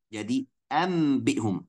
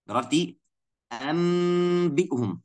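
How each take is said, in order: First: A short m sound is said before the b. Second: A long nasal m is held before the b. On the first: "kita akan tukarkan atau ganti atau merubahkan nunnya biar jadi mim" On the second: "Berarti kita kasih gunnah"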